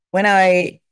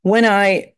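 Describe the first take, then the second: No difference in how they are said.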